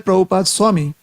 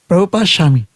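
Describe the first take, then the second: First: Swami begins with an s sound. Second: Swami begins with an sh sound. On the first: It follows the speaker's usual way of speaking. "if I would just say Prabhupada Swami" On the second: It follows the Bengali way of speaking. "Now I make an effort to say Shami"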